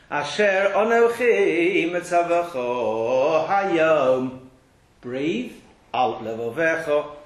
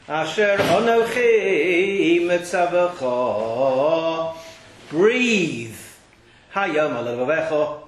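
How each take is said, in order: First: There is a pause after 'hayom'. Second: There is a pause before 'hayom'. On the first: 'Today' is joined to 'which I command you'. The speaker calls it right. "It makes sense" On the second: 'Today' is joined to 'on your heart'. The speaker calls it wrong. "which is wrong. Doesn't make sense what I just said"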